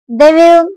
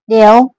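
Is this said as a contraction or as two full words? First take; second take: full words; contraction. First: Two full words are said without reduction. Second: The words are merged into one short syllable.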